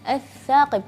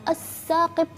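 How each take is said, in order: First: The consonant is a th with the tongue out. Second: The consonant is an s with the tongue inside. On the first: The speaker calls it right. "enggak, as-saqib" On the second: The speaker calls it wrong. "jangan as-saqib"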